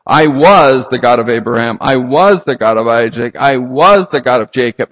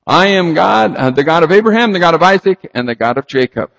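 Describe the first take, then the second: First: "was" stretched and punched each time; loud, even emphasis on every "was"; stress on WAS. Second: "I am" stated firmly as present tense; emphatic "I am", easing down by "Jacob"; stress on present tense. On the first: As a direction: hammer the word "was" in a repeated list. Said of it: "if he did mean to imply that they were dead". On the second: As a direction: lean on "I am", then list the names. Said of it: "Present tense". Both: Acted.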